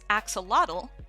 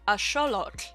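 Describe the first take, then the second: First: It is said with the usual English pronunciation. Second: It is said with a Nahuatl-like pronunciation. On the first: "instead of being pronounced as axolotl" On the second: "it actually sounds something like a xolotl"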